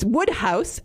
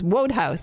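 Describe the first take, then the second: First: The first syllable rhymes with good. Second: The first syllable rhymes with road. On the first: The speaker calls it right. "So it's Woodhouse" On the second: The speaker calls it wrong. "I thought it was Wodehouse"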